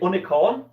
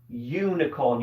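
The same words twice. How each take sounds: First: The word begins with a plain vowel sound. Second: The word begins with a Y sound. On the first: The speaker calls it wrong. "You don't say unicorn" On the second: The speaker calls it right. "Unicorn starts with a Y sound"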